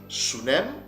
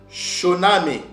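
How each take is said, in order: First: The name starts with an 's' sound. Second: The name starts with a 'sh' sound. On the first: This is a Yiddish, Edomite, Amalekite pronunciation. "c'est la prononciation en yiddish, édomite, amalekite" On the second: This is how the reference reads it. "Ils lisent Shoname"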